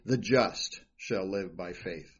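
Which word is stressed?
just. The stress is on "just".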